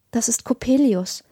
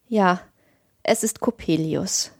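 First: Understated dread in a mother's voice; a touch of alarm, rising on the name; blanching alarm. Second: Weary, broken voice. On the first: Mother to the family at heavy footsteps, mildly alarmed. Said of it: "sagte meine Mutter erblassend". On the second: Father confirming the dreaded visitor, faint and broken. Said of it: "wiederholte der Vater mit matter, gebrochener Stimme". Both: A narrator's reading.

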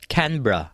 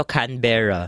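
First: 'Canberra' squeezed to CAN-bra; two syllables. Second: 'Canberra' in three syllables, can-BER-ra; usual Filipino pronunciation. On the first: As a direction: drop the middle vowel of 'Canberra'. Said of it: "imbis na three syllables siya". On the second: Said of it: "di ba sinasabi natin ito". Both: Shown as a demonstration.

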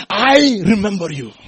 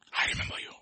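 First: High, ringing declaration; loud proclamation. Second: Soft, unvoiced whisper. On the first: Acted. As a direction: cry it out to the congregation. Jesus's words proclaimed to congregation. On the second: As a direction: whisper it intimately to the listener. Same words repeated as whisper.

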